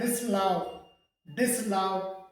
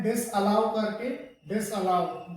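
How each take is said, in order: First: "डिसअलाउ" squeezed to "dis-lau", no middle a; correct disallow pronunciation. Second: "डिसअलाउ" with the middle a kept, "dis-a-lau"; disallow split apart. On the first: Teacher modelling for students, "डिसअलाउ" joined as dis-lau. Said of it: "इसका सही pronunciation". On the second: Teacher showing the mistake, "डिसअलाउ" as dis-a-lau. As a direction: say "डिसअलाउ" in three syllables. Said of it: "इसको अलग अलग बोलते हैं". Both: Shown as a demonstration.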